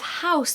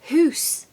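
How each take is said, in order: First: The vowel is an 'ow' sound. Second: The vowel is an 'oo' sound. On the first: "instead of house" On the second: "they say hoose"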